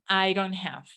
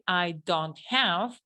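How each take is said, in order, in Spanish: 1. Las palabras se unen, con un sonido tipo r. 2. Cada palabra se dice por separado y claramente. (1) "aquí se va a transformar en I don't have. Fíjense, I don't, con R" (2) "si lo pronunciara cada palabra aparte"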